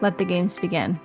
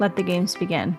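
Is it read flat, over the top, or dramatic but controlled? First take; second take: flat; flat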